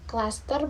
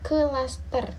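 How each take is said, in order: First: The k and l blend with no vowel between. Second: A short vowel separates the k and l. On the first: The speaker calls it right. "k diucapkan sebagai satu rangkaian bunyi yang cepat tanpa jeda atau tanpa vokal" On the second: The speaker calls it wrong.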